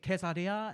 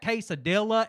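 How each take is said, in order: First: It is said with a Spanish-style pronunciation. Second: It is said with a plain English-style pronunciation. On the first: "I don't want to be the guy at the Mexican restaurant that's like" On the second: "I have an obligation to like pronounce those types of words wrong"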